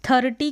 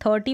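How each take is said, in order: First: First "थर्टी" with r fully sounded; full-r mispronunciation. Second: "थर्टी" with only half an r; half-r pronunciation. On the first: Teacher showing what to replace, "थर्टी" with full r. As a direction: roll out the whole r in "थर्टी". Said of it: "थर्टी की जगह". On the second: Teacher modelling the correct form, "थर्टी" with half r. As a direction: keep the r in "थर्टी" very light. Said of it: "अर करके आधा उच्चारण". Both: Shown as a demonstration.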